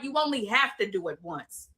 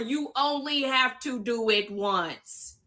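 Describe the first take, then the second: First: It is said at normal speed. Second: It is said slowly.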